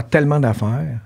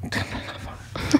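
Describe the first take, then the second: First: Said in the usual way. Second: Hushed whisper for emphasis. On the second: Real, not acted. Actor confiding how many jobs were turned down, whispered. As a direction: repeat it under your breath, all whisper.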